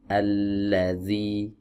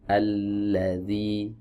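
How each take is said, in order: No difference in how they are said.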